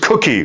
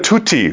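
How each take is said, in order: First: The consonants are k sounds. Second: The consonants are t sounds. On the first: An adult is saying the word. The speaker calls it right. "It's cookie" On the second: A small child is saying the word. The speaker calls it wrong. "Tutti was how she said it"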